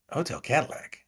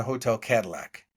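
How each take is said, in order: First: Puzzled echo. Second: Said in the usual way. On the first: Retold or imitated. Actor friend querying the odd hotel name, mildly puzzled. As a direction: echo it back as a puzzled question.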